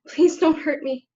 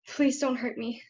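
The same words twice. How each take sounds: First: It is said with much stronger, intense feeling. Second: It is said quietly with mild feeling.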